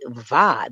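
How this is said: The syllable starts with a hard V sound. "they don't say va"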